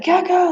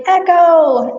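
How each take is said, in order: First: High-pitched retold call to a horse; retold alarmed call. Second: High, loud singsong call to a horse. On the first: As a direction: call the name out high, at normal loudness. First startled call to panicked horse. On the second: Retold or imitated. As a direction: call the name out brightly across a field. Calling out to her horse, retold.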